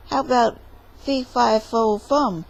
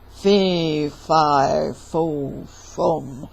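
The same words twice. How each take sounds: First: Said in the usual way. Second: Low, loud giant boom. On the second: Acted. Giant announcing his presence to Jack, booming. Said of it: "heard a booming voice".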